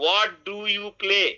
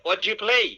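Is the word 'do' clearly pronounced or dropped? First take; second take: pronounced; dropped. First: Every word is said fully, including 'do'. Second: The words run together and 'do' drops out. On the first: "আমরা বলতাম কি" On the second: "আর বলছে"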